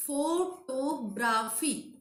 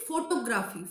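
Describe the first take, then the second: First: Photography very slowly, pho-to-gra-phy; syllable by syllable. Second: Said in the usual way. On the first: Shown as a demonstration. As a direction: break "Photography" into four drawn-out beats.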